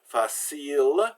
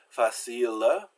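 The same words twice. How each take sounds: First: It ends on the consonant with no vowel. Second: It ends with an added short vowel syllable. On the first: This is how it is said in ordinary spoken French. "the final E is silent" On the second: This is how it is said in songs and poetry. "You would add the uh, short E on the end and add a syllable"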